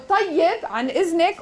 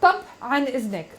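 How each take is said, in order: First: The first word is said in full, two syllables. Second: The first word is clipped to one short syllable.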